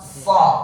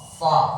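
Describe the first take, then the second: First: The syllable is said with still, unrounded lips. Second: The syllable is said with still, unrounded lips.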